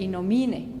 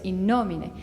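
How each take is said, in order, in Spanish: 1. El acento recae en la sílaba 'mi'. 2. El acento recae en la sílaba 'no'. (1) "qué se oye? Innomine, ¿no? Y está mal" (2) "se pronuncia innomine"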